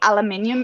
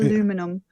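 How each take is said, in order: First: The word is said with five syllables. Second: The word is said with four syllables. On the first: This is how Australians say it. "actually aluminium in Australia" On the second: This is how Americans say it. "it sounds like how it's spelt"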